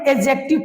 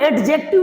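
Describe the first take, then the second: First: The d sound before the j is silent. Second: The d sound before the j is pronounced. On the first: The speaker calls it right. "इससे हम लोग पढ़ेंगे एडजेक्टिव पढ़ेंगे" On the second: The speaker calls it wrong. "इन्हें हम लोग एडजेक्टिव नहीं पढ़ते"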